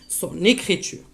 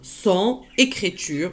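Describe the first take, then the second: First: The n sound links into the next word. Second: The two words are said separately, without linking.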